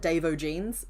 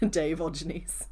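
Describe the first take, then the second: First: The name ends like an Irish surname, O'Genes. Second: The name ends like the word Diogenes. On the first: The reader does not know the pun. "you would pronounce that Dave O'Genes" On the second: The name is a pun on Diogenes. "that was from a Diogenes joke"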